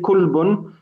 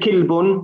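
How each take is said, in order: First: The first vowel is a u sound. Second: The first vowel is an i sound. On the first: "We're not going to say kulbun" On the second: "We're not going to say kilbun"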